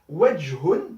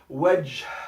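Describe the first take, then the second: First: The word ends with a final -un syllable. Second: The word ends in a breathy h consonant.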